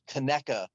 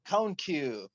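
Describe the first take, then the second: First: It is said as ka-NECK-a, stressing neck. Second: It is said as two syllables, cone-Q. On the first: The speaker calls it right. "you have to have the emphasis on the neck" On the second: The speaker calls it wrong. "that's got to be wrong"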